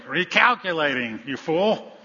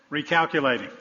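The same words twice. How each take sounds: First: Mock-nasty, louder and higher; drawn-out, insulting recalculation; nastier GPS. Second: Lightly voiced navigation prompt; a hint of a GPS voice. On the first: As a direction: scold the driver like a fed-up GPS. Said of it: "says again in a nastier way". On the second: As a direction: announce it like a GPS, mildly put on. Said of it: "person with this British accent comes on".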